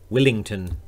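It is said in a New Zealand accent.

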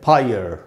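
The final r sound is pronounced. "American English में पढ़ेंगे"

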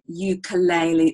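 It is said with an anglicized Australian pronunciation. The speaker calls it wrong. "we've kind of anglicized that, and particularly in Australia, we tend to say ukulele"

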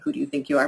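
It is asked in a confrontational, challenging tone.

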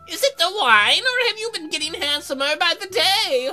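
It is said in an old lady voice.

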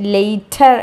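The middle consonant is a clear t sound. "British ഇംഗ്ലീഷിൽ പറയുന്നത്"

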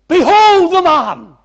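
It is said with shock and surprise.

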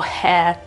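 The vowel is open and the r is silent. "in British English di solito è molto più aperta, tipo hair. E la R vedete che non c'è"

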